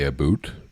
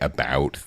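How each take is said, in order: First: It is said with the Canadian 'aboot' vowel. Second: It is said without the Canadian vowel.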